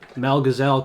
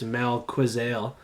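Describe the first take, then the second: First: The surname sounds like 'gazelle'. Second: The surname sounds like 'quizale'. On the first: The speaker calls it wrong. "I know we say that wrong" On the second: The speaker calls it right. "but it's Mel Quizale"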